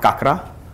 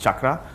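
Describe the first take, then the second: First: The word begins with a k sound. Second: The word begins with a ch sound. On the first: The speaker calls it wrong. "not kakra" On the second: The speaker calls it right. "That's why it's pronounced chakra"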